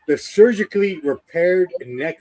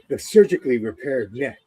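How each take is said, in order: First: It is said in a plain commentator voice. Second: It is said in an imitated character voice.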